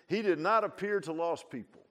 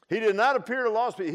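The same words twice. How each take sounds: First: Said in the usual way. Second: "did not appear" loud and high; emphatic repeat. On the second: Real, not acted. Preacher repeating who Jesus avoided, "not" loud and high. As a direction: hammer "not" with a raised, high voice.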